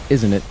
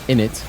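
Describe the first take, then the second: First: It is said the American way, fully pronounced. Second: It is said the British way, as innit.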